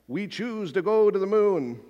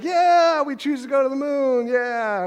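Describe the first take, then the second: First: Put-on a lightly done Boston-Kennedy accent, a bit higher; hint of a Kennedy accent, mildly raised pitch; JFK impression. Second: Imitating a crowd cheering, much higher and louder; mock crowd roaring yeah, high and loud. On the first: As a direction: quote it like JFK at the podium, Boston vowels. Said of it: "I don't really have a good accent". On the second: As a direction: whoop it like a thrilled crowd at the speech. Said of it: "And everybody's like".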